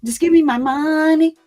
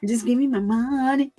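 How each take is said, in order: First: MONEY sung loud and playful, "me" punched; hammed-up party mom shouting "Just give me my money"; mock dance line. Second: Said in the usual way. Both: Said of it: "y'all should have seen me all in the TikTok videos".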